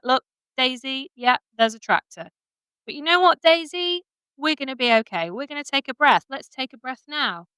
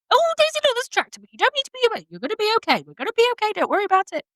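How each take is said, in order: First: Slow calm reassurance. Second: Much higher, fast, anxious chatter; high panicky chatter. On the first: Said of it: "So you can be like". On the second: Rider nervously gabbling to her horse Daisy, high and fast. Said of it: "You see the difference there". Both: Shown as a demonstration.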